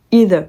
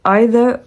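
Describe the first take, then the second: First: "either" opening with a long EE sound; EE-ther pronunciation. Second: "either" opening with an EYE sound; EYE-ther pronunciation. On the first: Asking the AI which is correct, "either" said EE-ther. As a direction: say "either" starting with "ee". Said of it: "il me disait qu'on disait i". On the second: Asking the AI which is correct, "either" said EYE-ther. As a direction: say "either" starting like English "eye". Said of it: "Je lui demandais si on disait". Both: Shown as a demonstration.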